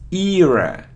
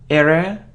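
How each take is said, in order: First: The first syllable sounds like ear. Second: The first syllable does not sound like ear. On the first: The speaker calls it right. "it's era ... ear, ear, era" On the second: The speaker calls it wrong. "It isn't era"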